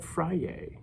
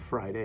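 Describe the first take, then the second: First: The word is said with lively excitement. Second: The word is said in a flat, plain way. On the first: The day is something to look forward to. The speaker calls it right. "We call it Friday, ... because we're excited about it" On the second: The day is just another day. The speaker calls it wrong. "not Friday"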